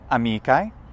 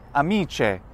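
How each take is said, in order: First: The consonant before the ending is a hard sound. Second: The consonant before the ending is palatalized. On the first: This is the classical pronunciation. "In classical" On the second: This is a spelling pronunciation. "In ecclesiastical ... Palatalization?"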